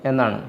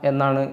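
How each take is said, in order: The two takes are said the same way.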